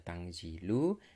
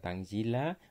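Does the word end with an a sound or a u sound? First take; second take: u sound; a sound. First: The word ends with a u vowel. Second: The word ends with an a vowel. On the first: It states that this Quran is revealed speech. "ketika dibaca Tangzilu" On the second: It is a command to read the revealed book. "Kalau dibaca Tangzila"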